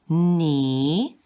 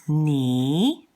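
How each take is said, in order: The two takes are said the same way.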